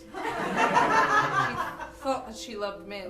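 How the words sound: It is said with a bitter tone.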